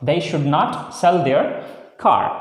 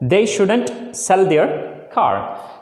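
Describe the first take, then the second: First: Should and not are said as two full words. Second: Should and not are joined into one word.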